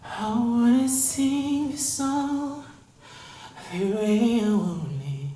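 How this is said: Lots of air flows out, breathy.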